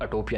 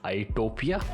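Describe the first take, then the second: First: The name begins with a short 'a' sound. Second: The name begins with an 'ai' sound. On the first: The speaker calls it wrong. "अटोपिया नहीं" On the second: The speaker calls it right.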